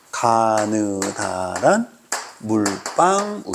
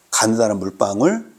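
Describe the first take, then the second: First: Chanted, 가느다란 물방울 drawn out very slowly, syllable by syllable; chanted, stretch each syllable of 가느다란 물방울, lifting at the end; slow memory chant. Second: Said in the usual way. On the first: Shown as a demonstration. Chanted, teacher giving students a mnemonic to memorise, drawn out slowly. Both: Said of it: "이렇게 기억하면 돼".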